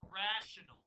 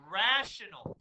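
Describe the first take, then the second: First: Said in the usual way. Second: "Rational" punched out loud and falling; stress on rational. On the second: Shown as a demonstration. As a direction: hit the word "Rational" hard and clear. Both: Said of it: "Emphasis on the word rational".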